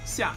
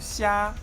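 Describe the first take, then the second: First: The pitch falls sharply from high. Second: The pitch stays high and level. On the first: "That's the fourth tone" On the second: "you just put it in the in, in the four tones"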